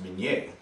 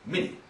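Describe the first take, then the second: First: The name is given a French pronunciation. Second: The name is given an American pronunciation. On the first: "in French is pronounced Minier" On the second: "Americans, not knowing the French pronunciation, saw that as Mini"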